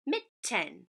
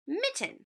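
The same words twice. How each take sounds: First: Mitten split as mit, ten with a gap; separate chunks. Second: Said in the usual way. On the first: Shown as a demonstration. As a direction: Mitten syllable by syllable, evenly parted. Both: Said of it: "Put them together".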